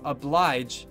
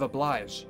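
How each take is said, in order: First: The final consonant is a 'j' sound. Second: The final consonant is a 'zh' sound. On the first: The speaker calls it right. "It's a J kind of sound" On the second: The speaker calls it wrong. "instead of like an S H kind of sound. Or a Z H"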